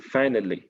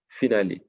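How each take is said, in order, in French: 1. Il est prononcé avec un accent anglais. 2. Il est prononcé avec un accent français. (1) "en anglais, on dit" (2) "si je lisais en français, en mentalité francophone, je dirais"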